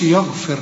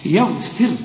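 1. صوت 'ya' في البداية ثقيل وغليظ. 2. صوت 'ya' في البداية خفيف ورقيق. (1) "هنا بقى ما نقولش يغفر لكم" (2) "يا وبعدين فخم وبعدين رقق"

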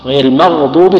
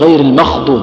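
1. الكلمة الثانية فيها صوت غين مجهور. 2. الكلمة الثانية فيها صوت خاء مهموس. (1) "الغين" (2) "الغين وش تصير؟ خاء"

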